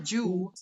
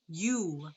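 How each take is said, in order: First: The syllable begins with a j sound. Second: The syllable begins with a y sound. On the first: The speaker calls it wrong. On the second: The speaker calls it right.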